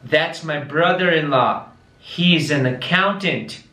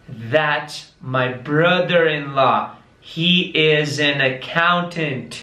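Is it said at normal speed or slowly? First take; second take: normal speed; slowly. First: It is said at normal speed. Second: It is said very slowly.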